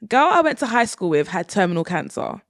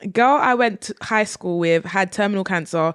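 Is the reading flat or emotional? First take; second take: emotional; flat. First: It is read with more feeling in the voice. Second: It is read in a flat, emotionless voice.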